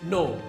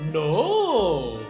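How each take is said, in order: First: It is said in a firm tone. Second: It is said in a cynical, threatening tone. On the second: "a cynical mind of a madman who's threatening a hostage"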